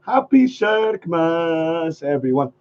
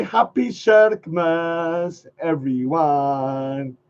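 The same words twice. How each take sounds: First: Slow repeated greeting. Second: Slow demo greeting. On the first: Second slow take of the greeting to viewers. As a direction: repeat it slowly. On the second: Teaching viewers the new greeting, slow and drawn out. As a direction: draw out Happy Shirkmas slowly. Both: Shown as a demonstration. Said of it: "if you say".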